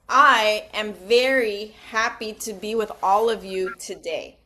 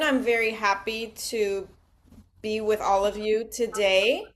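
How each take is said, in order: First: It is said slowly with exaggerated emotion. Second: It is said plainly and fairly fast.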